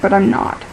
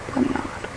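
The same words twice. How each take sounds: First: Said in the usual way. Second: "but I'm not" whispered under the breath. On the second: Real, not acted. Tired but not, said twice.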